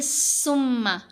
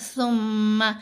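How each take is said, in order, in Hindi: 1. यह तेज़, सीटी जैसी 's' की आवाज़ से शुरू होता है। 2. यह नर्म 'th' की आवाज़ से शुरू होता है। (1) "तो फिर वो सीन की आवाज़ पैदा होती है" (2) "सा को नरमी से पढ़ना है"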